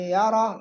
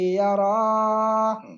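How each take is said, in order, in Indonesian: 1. Vokal dalam kata itu dibaca pendek. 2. Vokal dalam kata itu dibaca panjang. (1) "Yang benar" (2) "Pokoknya panjang dibaca"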